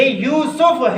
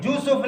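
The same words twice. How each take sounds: First: Slow "یوسف" with y; careful y glide opening "یوسف"; correct pronunciation. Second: "یوسف" said with a j; softer wrong-example j on "یوسف"; mispronunciation. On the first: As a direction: stretch "Yoo-suf" for "یوسف". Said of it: "یہ یوسف ہے". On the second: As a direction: toss off "Joosuf" for "یوسف", softer. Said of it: "یوسف نہیں ہے". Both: Shown as a demonstration.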